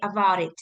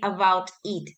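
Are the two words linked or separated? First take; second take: linked; separated. First: The two words are linked together smoothly. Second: The two words are said separately. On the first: The speaker calls it right. "We try to say about it" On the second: The speaker calls it wrong. "We don't say about it"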